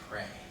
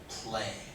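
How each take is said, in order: First: An r sound follows the p. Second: An l sound follows the p. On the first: The speaker calls it wrong. "You were saying pray" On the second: The speaker calls it right. "the word play"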